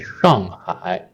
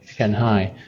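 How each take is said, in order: First: It is said with a Mandarin pronunciation. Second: It is said with an English-style pronunciation. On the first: "In Chinese, we say" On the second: "some people say"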